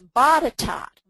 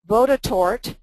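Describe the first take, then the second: First: The last syllable does not sound like court. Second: The last syllable sounds like the word court. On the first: The speaker calls it right. "no, Barbara, it's Botetourt" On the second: The speaker calls it wrong. "I called it Vodotort because it looked like court"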